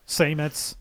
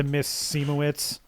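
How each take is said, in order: First: "Semitz" said in two syllables; retry the surname as short "Semitz"; self-corrected name pronunciation. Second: "Seemowitz" said in three syllables; tentative stab at "Seemowitz"; unsure name pronunciation. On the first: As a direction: quieter second stab at "Semitz". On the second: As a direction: try the surname as "Seemowitz", with an extra middle syllable. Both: Real, not acted. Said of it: "whatever her name is".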